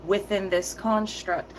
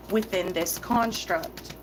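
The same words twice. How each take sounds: First: Slow, each word weighted on "Within this construct"; slow emphatic repeat. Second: "Within this construct" dragged out slowly, stress on "Within"; slow emphatic repeat. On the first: To viewers who missed it, slow emphatic repeat. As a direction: lean on "Within" and drag "Within this construct". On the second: Repeating for those who didn't hear, slow emphatic stress. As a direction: hammer "Within" and let "construct" fall. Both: Shown as a demonstration. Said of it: "I'm gonna repeat it one more time".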